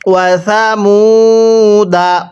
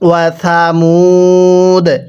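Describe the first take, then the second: First: The word ends with a final vowel. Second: The word ends on a bare consonant. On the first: The reading continues without a stop. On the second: The reader stops at this word.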